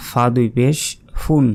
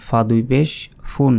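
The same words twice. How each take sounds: The two takes are said the same way.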